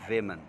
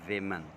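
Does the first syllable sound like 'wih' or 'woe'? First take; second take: wih; wih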